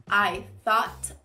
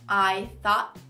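Both takes have the same delivery.

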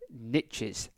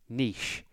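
First: It is said in an American accent. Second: It is said in a British accent.

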